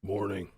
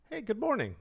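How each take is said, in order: First: Low one-word manly reply; imitated low, curt greeting; deep male greeting. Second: High, lilting animated greeting; animated high-pitched greeting; bright greeting. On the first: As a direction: drop the voice low, imitating a big man. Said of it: "And he went". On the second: Retold or imitated. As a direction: sing out a hello, pitch swooping high. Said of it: "like that".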